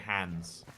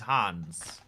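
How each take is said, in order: First: The name is said like English 'hands'. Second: The name is said with a German accent. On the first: "Whereas we'd say hands" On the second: "If you just say it in an accent"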